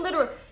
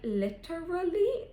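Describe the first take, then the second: First: The word is said in a casual, everyday way. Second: The word is said in an affected, overdone way. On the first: The speaker calls it right. "We're like literal" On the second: The speaker calls it wrong. "I said it like literally"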